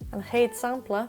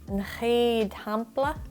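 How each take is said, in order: First: The word 'sampla' begins with an S sound. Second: The word 'sampla' begins with an H sound. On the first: The speaker calls it right. "ach an chéad sampla" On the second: The speaker calls it wrong. "níl sé chomhdalaí"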